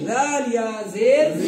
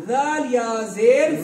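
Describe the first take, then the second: The two takes are said the same way.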